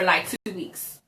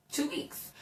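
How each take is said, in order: First: Said in the usual way. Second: Whispered echo. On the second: Real, not acted. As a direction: whisper "Two weeks." in a stunned hush. Echoing the hospital stay length.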